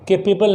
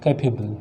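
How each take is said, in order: First: "केपेबल" with pe in the middle; mispronounced capable. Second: "कैपेबल" in the taught reading; correct pronunciation. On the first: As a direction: say "केपेबल", wrongly starting ke-pe. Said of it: "केपेबल नहीं पढ़ते हैं". ("केपेबल" वाला गलत उच्चारण) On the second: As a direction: say "कैपेबल", opening with kai rather than ke. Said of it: "उसको क्या पढ़ते हैं". ("कैपेबल" का सिखाया गया उच्चारण) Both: Shown as a demonstration.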